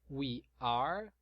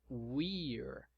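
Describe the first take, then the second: First: Two separate words, each fully pronounced. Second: Words merged into one short syllable. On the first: "na forma extensa" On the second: "Na forma contraída"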